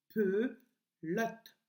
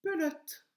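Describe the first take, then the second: First: "Pelote" in two slow syllables, pe, pause, lote; split syllables. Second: Said in the usual way. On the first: Shown as a demonstration. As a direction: break "Pelote" after a drawn-out "pe". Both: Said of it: "Est-ce que tu entends le son I".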